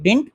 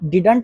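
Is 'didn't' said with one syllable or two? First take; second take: one; two. First: The word is squeezed into a single syllable. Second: The word is said with two full syllables. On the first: This is the modern way of saying it. The speaker calls it right. "डिंट पढ़ा जाता है" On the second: This is an old-fashioned way of saying it. The speaker calls it wrong. "डिडंट पुराना हो चुका है"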